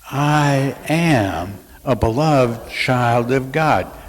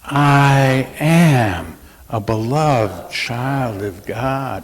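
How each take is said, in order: First: It is said in a plain, casual way. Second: It is said with heartfelt, deep conviction.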